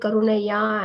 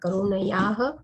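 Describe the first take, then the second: First: The final h sound is dropped at the end. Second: The final h sound is clearly pronounced. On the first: The speaker calls it wrong. "Don't say Karuna Yah and leave it like that" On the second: The speaker calls it right. "Ha also should be clearly said here"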